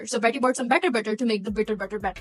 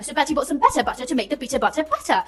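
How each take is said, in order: First: It is said in a Pakistani accent. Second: It is said in a British accent.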